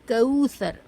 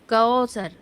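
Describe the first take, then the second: First: The first vowel sounds like 'oo'. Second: The first vowel sounds like 'o'. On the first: The speaker calls it right. "मारूफ सही आवाज़ है ऊ" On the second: The speaker calls it wrong. "मजहूल गैर मुनासिब आवाज़ है ओ"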